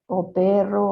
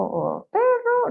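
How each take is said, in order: First: Said in the usual way. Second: "perro" drawn out slowly, starting much higher and falling; high sweeping perro. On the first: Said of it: "es el mismo perro". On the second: Shown as a demonstration. Showing an interviewer a word with varied melody, drawn-out high falling tone. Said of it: "habla con tantas melodías".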